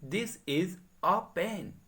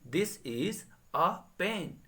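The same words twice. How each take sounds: No difference in how they are said.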